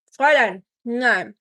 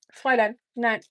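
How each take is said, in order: First: Louder, stern 'Fräulein, nein' with falling ends; firm command. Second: Said in the usual way. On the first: Real, not acted. Scolding the dog at the food: stern, loud command. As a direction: tell the dog off firmly.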